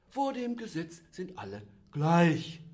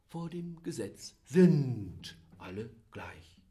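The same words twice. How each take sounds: First: The stress is on "gleich". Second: The stress is on "sind".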